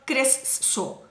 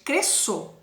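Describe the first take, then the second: First: "cresço" with a doubled s, cres-sço; "cresço" said wrongly, s sounded twice; wrong pronunciation. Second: "cresço" with one s sound; "cresço" said correctly, single s; right pronunciation. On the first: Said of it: "Eu não falo cresço". ("cresço" errado, com s dobrado) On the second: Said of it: "é cresço". ("cresço" certo, um só som de s) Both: Shown as a demonstration.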